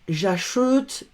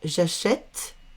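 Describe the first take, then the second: First: The vowel in the last syllable is closed. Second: The vowel in the last syllable is open. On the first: The speaker calls it wrong. "On va pas dire" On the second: The speaker calls it right. "on va ouvrir. On va faire"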